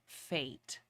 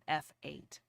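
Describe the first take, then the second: First: It is said as one syllable, like fate. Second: It is said as the letter F plus eight. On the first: The speaker calls it right. "It's actually pronounced Fate" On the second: The speaker calls it wrong. "not F eight"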